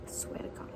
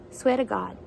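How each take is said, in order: First: Breathy whisper, much softer; whispered oath. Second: Said in the usual way. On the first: Shown as a demonstration. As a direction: whisper it like a secret promise. Repeats the oath, then whispers it.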